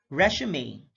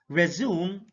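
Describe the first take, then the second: First: "resume" as RESH-uh-may; three-syllable "resume", RESH-uh-may; noun pronunciation. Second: "resume" as rih-ZOOM; two-syllable "resume", rih-ZOOM; verb pronunciation. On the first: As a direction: stress the first syllable of "resume", ending in may. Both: Shown as a demonstration. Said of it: "stress is the verbal emphasis used".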